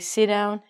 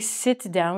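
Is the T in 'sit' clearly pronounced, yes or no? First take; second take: no; yes. First: The T in 'sit' is cut off and not released. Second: The T in 'sit' is clearly pronounced. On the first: The speaker calls it right. "We say sit down" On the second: The speaker calls it wrong. "We don't say sit down"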